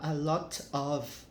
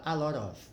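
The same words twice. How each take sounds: First: "a lot of" with a hard T in "lot", each word apart; unlinked "a lot of", crisp T; separated lot of. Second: American flap T in "a lot of"; linked American lot of. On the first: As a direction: say "lot" and "of" separately, T fully pronounced. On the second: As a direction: blend "lot of" into "lodda". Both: Shown as a demonstration. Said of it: "você acaba emendando aqui".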